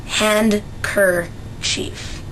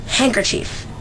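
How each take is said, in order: First: Handkerchief with the d and k sounded; handkerchief said "hand-ker-chief" as spelled. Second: Handkerchief said "hankerchief", the d dropped; handkerchief as "hang-ker-chief", no d; spoken handkerchief. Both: Shown as a demonstration. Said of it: "is actually spelled handkerchief".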